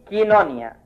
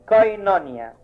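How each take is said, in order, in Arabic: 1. المقطع الأول فيه حركة i فقط. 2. المقطع الأول فيه حركة o وحركة i. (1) "يتنطق الحرف الثاني اللي هو اي يبقى كينونيا" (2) "يتنطقوا الحرفين كاملين يبقى اي كوينونيا"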